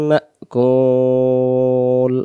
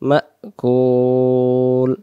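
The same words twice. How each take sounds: The two takes are said the same way.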